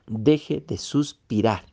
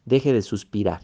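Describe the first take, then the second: First: Deje de suspirar said slowly, each word weighed; slow down on Deje de suspirar and lean into it; slow, deliberate repeat. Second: Said in the usual way. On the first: Shown as a demonstration. (Deje de suspirar, lento y pausado)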